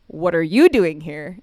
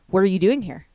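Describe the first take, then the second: First: Slow and loud, YOU stretched and punched; stress on YOU. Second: Loud, surprised question; taken aback. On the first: Pastor turns the question on dad, stress on "you". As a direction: throw it back, leaning hard on "you". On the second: Dad finds the pastor in his office, surprised. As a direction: blurt the question at an unexpected face. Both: Retold or imitated.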